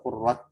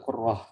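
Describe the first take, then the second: First: The word ends with a t sound. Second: The word ends with an h sound. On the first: The speaker calls it right. "qurrat bukan qurrah ya karena tulisannya pakai ta mabsuta" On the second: The speaker calls it wrong. "bukan qurrah"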